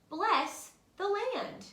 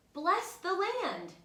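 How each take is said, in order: Both takes have the same delivery.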